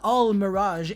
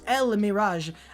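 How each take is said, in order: First: The first word is said like 'al'. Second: The first word is said like 'el'. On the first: The speaker calls it wrong. "the pronunciation of this card is not Al Mirage" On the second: The speaker calls it right. "it's El Mirage"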